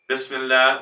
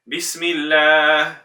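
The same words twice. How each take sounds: First: The vowels are loose and sloppy. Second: The vowels are clean and precise. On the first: The speaker calls it wrong. "Why doesn't it sound as good as" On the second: The speaker calls it right. "as good as Bismillah"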